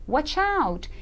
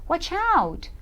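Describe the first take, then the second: Both takes have the same delivery.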